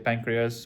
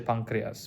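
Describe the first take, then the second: First: It is pronounced with an English pronunciation. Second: It is pronounced with a Turkish pronunciation. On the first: "we say pancreas" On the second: "Turkish people say pancreas, meaning they pronounce it a little bit different"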